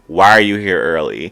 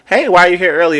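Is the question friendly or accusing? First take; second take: accusing; friendly. First: It sounds suspicious and accusing. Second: It sounds like a friendly, genuine question.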